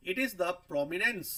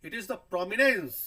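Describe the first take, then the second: First: Drawn out, each word separated; teacher stretching a definition; slow and deliberate. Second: Prominence hit loud and slow with a falling end; teacher repeats the definition louder; emphatic repeat. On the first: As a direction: spell it out slowly for the class. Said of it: "फिर है stress". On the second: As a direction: press the word prominence home for students. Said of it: "ध्यान दीजिए". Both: Shown as a demonstration.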